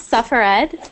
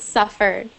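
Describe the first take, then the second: First: The ending is said as a separate 'ed' syllable. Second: The ending is said as a plain 'd' sound. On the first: The speaker calls it wrong. "it's not suffered" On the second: The speaker calls it right. "but it's suffered ... you don't pronounce the ed"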